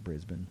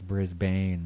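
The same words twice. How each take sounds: First: The name is pronounced in an Australian way. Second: The name is pronounced in an American way. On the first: "but they might say it Brisbane" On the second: "probably in American it's Brisbane"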